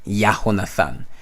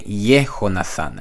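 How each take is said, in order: First: The first syllable is said like 'yah'. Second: The first syllable is said like 'yeh'. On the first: The speaker calls it wrong. "and not Yahonathan" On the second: The speaker calls it right. "most people pronounce this will be Yehonathan"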